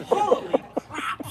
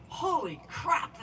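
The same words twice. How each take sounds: First: Very high, loud, slow holy crap with a laugh; hammed-up exasperated wail; laughing mock exasperation. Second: Drawn-out, higher, louder holy crap; mock exasperated drawl; retold exasperation. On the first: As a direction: ham up her climbing complaint while laughing. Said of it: "she'd say". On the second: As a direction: imitate her groaning at the climb. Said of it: "kept stopping and saying".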